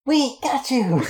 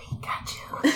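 First: High, muffled cry from far off; muffled shout. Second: Faint, breathy far-off cry; like it's halls away; distant muffled whisper. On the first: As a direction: shout it through a wall. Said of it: "a muffled". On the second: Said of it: "slightly more muffled". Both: Acted.

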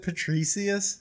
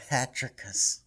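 First: Patricius with an "ee-see-us" ending; alternative pronunciation. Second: Patricus with a short "ick-us" ending; preferred pronunciation. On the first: Podcaster querying the saint's name, Patricius said puh-TREE-see-us. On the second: Podcaster choosing the name he likes, Patricus said PAT-rick-us. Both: Shown as a demonstration. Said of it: "I like Patricus".

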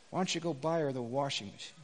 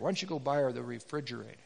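First: Low, soft, gentle question; soft voice of God. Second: Low, soft, a little quicker; same gentle question, corrected; soft voice of God. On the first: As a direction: ask it softly, almost tender. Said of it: "this is what God said to him". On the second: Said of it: "it was a refrigerator". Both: Acted. God gently prompting the divorced man, low and soft.

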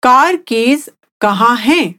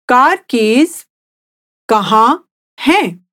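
First: Said in the usual way. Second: Slow, split into two parts with a pause; slowly, in chunks. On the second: Shown as a demonstration. Teacher repeating the question for the listener, slow and in chunks. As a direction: break it up for a learner to repeat. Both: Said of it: "I'll say it again slowly".

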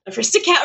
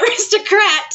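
First: "aristocrat" said without its second r, as "aristocat"; "aristocrat" ending in "cat" rather than "crat"; mispronounced aristocrat. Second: "aristocrat" with a clear r, ending in "crat"; high, amused "aristocrat" with the "crat" sounded; corrected pronunciation. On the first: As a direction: slip and say "aristocrat" as "a-RIS-to-cat". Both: Real, not acted. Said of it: "Not the Disney people aristocrat".

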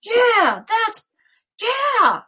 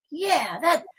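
First: Loud, high-pitched, mounting yeah; hammed-up yeah, getting carried away; escalating agreement. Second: Higher-pitched, eager acted yeah; rising agreement. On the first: Speaker acts out being swept up by a thought, escalating agreement. Acted agreement building out of control. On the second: Speaker acts out a thought taking hold, rising agreement. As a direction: play giving in to a creeping thought. Acting out a feeling creeping in.

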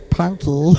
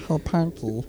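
First: Punky in a cartoonish Meatwad voice; Meatwad-style impression. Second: Soft Meatwad impression. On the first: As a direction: call Punky like the deaf friend, Meatwad-style. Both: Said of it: "impression of the deaf friend".

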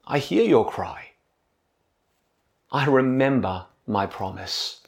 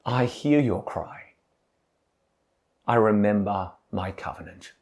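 First: Gentle, softer voice of God, full of care; a caring promise, spoken softly; tender God. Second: Much softer and lower, a tender hush of comfort; soft, lower voice of God, caring; tender words of care. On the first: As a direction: speak it tenderly, like comfort to the broken. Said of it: "Can you hear the tenderness in God's voice". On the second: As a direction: lean in close and speak it like a gentle promise. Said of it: "God speaks tender words of care". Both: Acted.

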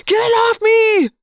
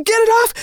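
First: High, loud frantic plea, falling; panicked screaming. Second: High, loud frantic plea; panicked screaming. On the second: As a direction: scream it desperately. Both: Acted. Boy begging to remove the rat.

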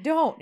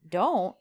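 First: High, quick retold protest; woman's protest. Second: Man's echo. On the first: Woman stopping his kiss, high mock protest. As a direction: voice her refusal up high. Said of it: "And she's like". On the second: Retold or imitated. Man echoing the woman's protest, plain retold echo. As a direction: echo it back in an unraised voice. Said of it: "And he says".

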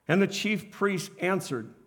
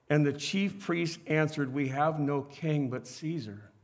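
First: Said in the usual way. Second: Low, soft and slow for emphasis; quiet. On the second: Shown as a demonstration. Preacher to congregation, hushed and slow. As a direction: lean in and drop the voice to make them listen. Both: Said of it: "listen to this".

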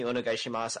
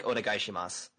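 First: Said in the usual way. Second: "Onegaishimasu" read flat, every syllable even; flat, stiff foreigner reading of "Onegaishimasu"; flat foreigner Japanese. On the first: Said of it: "if you just say, say". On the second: Shown as a demonstration. Showing how a foreigner reads Japanese, flat and even. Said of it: "they'll just read it flat".

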